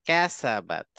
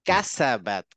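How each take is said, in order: No difference in how they are said.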